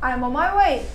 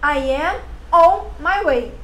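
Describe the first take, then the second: First: The words run together with linked sounds. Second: Each word is said separately and fully. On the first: This is how people actually speak. "ela conectou a consoante com a vogal, a palavra fraca com a palavra forte" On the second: This is how it would be read. "Assim é como você leria"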